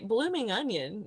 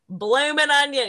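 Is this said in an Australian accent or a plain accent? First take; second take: plain; Australian. First: It is said in a plain, neutral accent. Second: It is said in an exaggerated Australian accent. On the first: The speaker calls it wrong. "you can't just say blooming onion" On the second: The speaker calls it right. "You have to like put the stank on it, the Australian stank"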